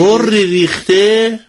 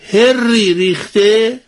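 First: The first word is said with an 'oo' vowel. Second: The first word is said with an 'a' vowel. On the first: The speaker calls it right. "همون هوری بگیم" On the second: The speaker calls it wrong. "من چی گفتم؟"

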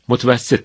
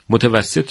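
First: The word is said with one syllable dropped. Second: The word is said in full, with all syllables. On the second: "متوسط رو"

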